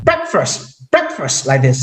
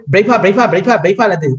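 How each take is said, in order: First: Breakfast with a full k and st, softer; crisp breakfast, every consonant; correct way. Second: Breakfast said as brefa, the k and t dropped; clipped brefa for breakfast; Burmese way. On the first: Teacher giving the correct pronunciation, careful. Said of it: "Actually, that is not". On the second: Teacher showing the Burmese mispronunciation. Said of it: "that is not breakfast". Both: Shown as a demonstration.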